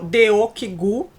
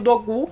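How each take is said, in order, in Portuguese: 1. O nome segue uma pronúncia romanizada baseada na grafia. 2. O nome segue a pronúncia coreana original. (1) "que virou Deokigu" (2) "o nome do Dogu"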